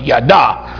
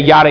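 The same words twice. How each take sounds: First: It is said with a harsh, throaty sound. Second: It is said softly, with no throaty sound. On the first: The speaker calls it right. "Get a little Klingon in you" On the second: The speaker calls it wrong. "it is not yada. Like on Seinfeld"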